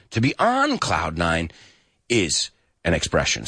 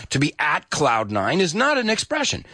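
First: On hit firmly in To be on cloud nine; stress on ON. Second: NOT stressed in To be at cloud nine is not an expression; weight on not, at said lightly. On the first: Teacher stresses on to show the right form. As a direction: lean on the word on. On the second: Teacher marks the wrong form, stressing not. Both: Shown as a demonstration. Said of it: "the preposition on is just as important".

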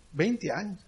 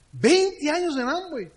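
First: Said in the usual way. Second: High, drawn-out disbelief; astonished echo. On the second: Retold or imitated. Uber driver amazed at twenty years, astonished echo. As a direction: repeat it back amazed, pitch leaping up.

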